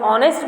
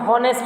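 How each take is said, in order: First: The word starts with a vowel sound. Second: The word starts with an h sound. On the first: The speaker calls it right. "इसको हम ऑनेस्ट बोलते हैं" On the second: The speaker calls it wrong. "इसको हम हॉनेस्ट नहीं बोलते हैं"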